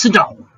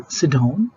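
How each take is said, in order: First: Sharp higher-pitched order with falling end; commanding. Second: Said in the usual way. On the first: Shown as a demonstration. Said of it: "speak like this". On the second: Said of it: "now this is normal".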